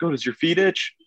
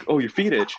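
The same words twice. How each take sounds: First: High, rising question as dad; dad's puzzled question, lifted high at the end; retold dad. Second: Dad's line, raised pitch, falling end; high-pitched dad, settling the matter; retold dad. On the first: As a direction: imitate dad asking, pitched well up. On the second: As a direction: imitate dad concluding it, voice pitched up. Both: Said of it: "My dad's like".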